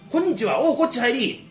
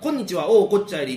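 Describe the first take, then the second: First: The words are delivered in a theatrical, acted-out style. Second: The words run on smoothly in a steady tempo. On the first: "でも役者は…もうなんかもうお芝居すんねんな" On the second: "流れてるって感じ、うん、言葉がずっと"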